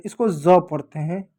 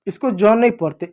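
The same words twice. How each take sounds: First: ज said as buzzing z; correct z reading. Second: ज said as English J; wrong j reading. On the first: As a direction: make ज an English Z. (बिंदु वाला ज़, z की ध्वनि) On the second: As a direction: say ज with j, no buzz. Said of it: "इसको ज पढ़ते हैं". (बिना बिंदु वाला ज) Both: Shown as a demonstration.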